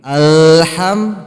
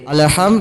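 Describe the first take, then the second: First: It is said slowly, holding the middle sound. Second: It is said quickly, rushing the middle sound. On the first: The speaker calls it right. "Tahan dulu dikit. ... jangan dipercepat" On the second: The speaker calls it wrong. "Kalau dipercepat jadi"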